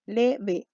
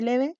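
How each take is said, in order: First: "leve" slowly in two beats, le, ve; teacher dividing "leve" syllable by syllable; split into syllables. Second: Said in the usual way. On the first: Shown as a demonstration. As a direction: break "leve" apart with a pause between le and ve. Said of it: "dos sílabas". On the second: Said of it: "dividámoslo".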